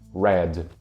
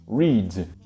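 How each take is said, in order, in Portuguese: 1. A vogal é um som curto e aberto de 'eh'. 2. A vogal é um som longo de 'ee'. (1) "fica com um som de E aberto no past simple e no past participle" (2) "que também tem o som de I"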